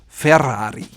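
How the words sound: It is said with a rolled Italian double R. The speaker calls it right. "double rolled Italian R"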